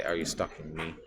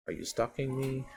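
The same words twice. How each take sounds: First: Said in the usual way. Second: "Are you stalking me?" asked higher, with a rising, wary push on "me"; higher suspicious retake. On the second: Shown as a demonstration. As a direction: pitch the line up as a suspicious accusation. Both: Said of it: "I say".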